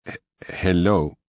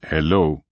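First: Slow, halting machine voice; a newly woken computer voice stumbling; stammering synthesized voice. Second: Said in the usual way. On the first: A narrator's reading. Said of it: "A synthesized voice came from the speaker". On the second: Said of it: "Sarker said again".

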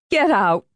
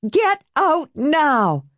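First: A firm warning, Get hit hard. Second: Much higher, slow, every word Get out now spaced; escalated warning. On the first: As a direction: warn him off once. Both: Acted. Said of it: "she warned".

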